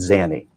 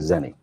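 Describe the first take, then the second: First: The first vowel sounds like the 'a' in 'can'. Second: The first vowel sounds like the 'e' in 'pen'. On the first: The speaker calls it right. "Pronunciation, sir, is Zanny" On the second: The speaker calls it wrong. "the way you're pronouncing, you're saying Zenny"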